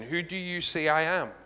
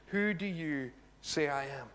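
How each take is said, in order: First: Said in the usual way. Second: Slow, with "Who" leaned on and each word spaced out; slow weighty question. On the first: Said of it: "how will you answer this question?". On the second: Shown as a demonstration. Preacher pressing the congregation with the key question, slow and weighty. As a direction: let it land slowly, heavy on "Who". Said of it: "the most important question you will ever answer".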